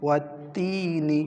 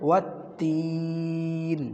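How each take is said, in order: First: The vowel is short and ends on 'ni'. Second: The vowel is stretched long and ends on 'n'. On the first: The reciter continues without stopping. "যেভাবে লেখা আছে এভাবে পড়লে" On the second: The reciter stops at this word. "তিন আলিফ টান দিয়ে পড়বেন"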